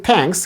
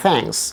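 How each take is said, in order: First: Thanks with a hard aspirated T; common mispronunciation. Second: Thanks with a soft airy th; correct th. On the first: Teacher showing the habitual error, hard-T thanks. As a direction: stop the th of thanks into a Bengali থ. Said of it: "বলে থাকি thanks". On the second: Teacher giving learners the correction, soft-th thanks. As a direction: let air flow at the start of thanks. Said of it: "উচ্চারণটা হবে গিয়া thanks". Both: Shown as a demonstration.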